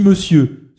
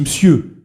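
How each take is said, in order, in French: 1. 'Monsieur' se dit d'une manière maniérée et affectée. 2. 'Monsieur' se dit d'un ton sec et dédaigneux. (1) "ce qui est affecté" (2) "ce qui semble infiniment méprisant"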